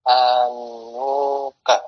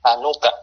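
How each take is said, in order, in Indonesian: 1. Vokal setelah 'han' dibaca panjang. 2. Vokal setelah 'han' pendek. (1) "ada wawunya" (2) "hanuka dengan harokat dhammah"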